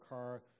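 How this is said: The final r sound is clearly pronounced. "where we in California would say car"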